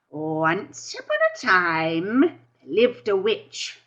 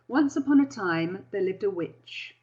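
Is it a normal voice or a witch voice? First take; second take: witch; normal. First: It is said in a witch's voice. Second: It is said in a regular voice.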